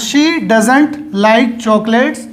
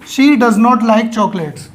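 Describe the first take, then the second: First: 'Does not' is contracted into one short word. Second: 'Does not' is said as two full words. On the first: The speaker calls it right. "बोलने में ज़्यादा अच्छा ये लगता है" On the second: The speaker calls it wrong. "ये इसकी full form है"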